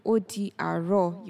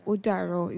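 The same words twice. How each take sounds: First: Said in the usual way. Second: "ó dàárọ̀" with di and àárọ̀ merged into dàárọ̀; contracted greeting. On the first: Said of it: "instead of hearing". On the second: Shown as a demonstration. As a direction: blend di into "ó dàárọ̀" with no i. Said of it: "you hear it as".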